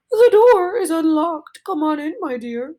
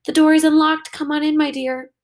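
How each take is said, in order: First: A wolf straining to pass as grandma; wolf faking old lady. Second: Grandmother. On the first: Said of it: "trying very much to sound like an old lady". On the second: Grandmother answers from inside the house. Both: Acted.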